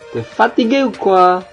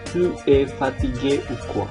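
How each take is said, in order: First: The pronoun is merged with the verb as t'es. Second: The pronoun is said in full as two words. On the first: This is the form used in conversation. "Kalau kita mengatakannya secara normal" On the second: This is the form used in writing. "Kalau dalam tulisan ya tetap kita menuliskannya"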